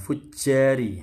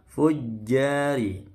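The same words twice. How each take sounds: First: The j sound leaks out with extra air. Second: The j sound is held tight without leaking. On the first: The speaker calls it wrong. "Jangan fujjari" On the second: The speaker calls it right. "hati-hati fujjari"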